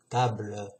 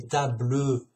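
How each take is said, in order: First: Said in the usual way. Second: "table" said as "ta-bleu" with a sounded final e; pronounced with an E. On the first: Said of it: "Il n'y a pas de E". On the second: Shown as a demonstration. Explaining spelling, says "table" with the added e sound. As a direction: voice the e at the end of "table". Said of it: "Il n'y a pas de E, sinon tu dirais".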